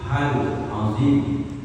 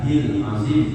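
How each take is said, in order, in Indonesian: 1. Vokal sebelum azim adalah a. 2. Vokal sebelum azim adalah i. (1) "Yang betul itu hal azim" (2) "jangan hil azim"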